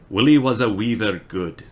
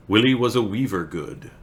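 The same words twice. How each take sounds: First: Badly faked Scottish; attempted Scottish accent. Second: Said in the usual way. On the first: Shown as a demonstration. Streamer struggling through Burns poem for chat, attempted Scottish accent. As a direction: have a shaky-confidence go at Scottish. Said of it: "I can't do it right now".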